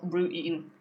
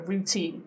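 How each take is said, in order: First: The t is replaced by a glottal stop. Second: The t is pronounced as a full t. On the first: The speaker calls it wrong. "not routine" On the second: The speaker calls it right. "Notice routine does not have a glottal T because teen is stressed"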